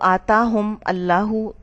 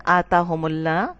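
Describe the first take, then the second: First: The m stops before a separate 'Allahu'. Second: The m flows into 'Allah' with a u vowel. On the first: The speaker calls it wrong. "इसमें रवानी ना आती" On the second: The speaker calls it right. "रवानी के लिए सुकून हटा दिया"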